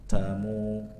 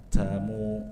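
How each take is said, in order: The two takes are said the same way.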